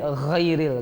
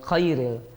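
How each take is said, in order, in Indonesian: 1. Kata ini diawali bunyi gh dari tenggorokan. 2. Kata ini diawali bunyi seperti k. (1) "huruf gha" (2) "Mengucapkan huruf gha itu seperti qaf dan kaf"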